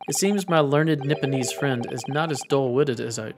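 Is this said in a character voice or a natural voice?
natural voice. It is said in the speaker's ordinary voice. The speaker calls it wrong.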